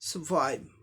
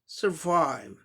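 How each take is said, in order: First: A British accent, with no R sound. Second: An American accent, with the R sound. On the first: "British English हो गया" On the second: "American में ... आर का भी sound आ जाएगा"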